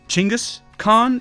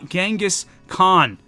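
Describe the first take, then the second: First: The name is said closer to the native form. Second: The name is said the familiar English way.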